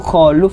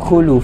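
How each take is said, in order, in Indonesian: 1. Vokal pertamanya bunyi 'a'. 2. Vokal pertamanya bunyi 'u'. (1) "khuluf itu salah baca" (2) "Yang betul itu khuluf"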